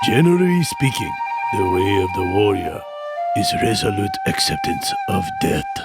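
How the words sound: It is said in a stereotyped Japanese voice.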